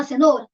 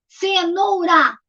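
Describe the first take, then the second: First: Said in the usual way. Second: CENOURA very slowly, CE, NOU, RA; syllable by syllable. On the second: Shown as a demonstration. Teacher counts the giraffe's food, syllable by syllable. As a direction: draw CENOURA out in three beats. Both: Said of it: "três".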